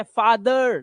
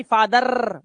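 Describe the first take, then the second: First: फादर with the final r softened to uh; soft uh ending. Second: फादर with a long trilled final r; wrong rolled r. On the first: Teacher gives the English for papa, फादर ending uh. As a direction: end फादर on uh, unrolled. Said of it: "वो अ की आवाज होती है". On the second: Teacher showing the mistake, फादर with rolled r. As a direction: drag out the r at the end of फादर. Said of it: "रा नहीं करना है". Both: Shown as a demonstration.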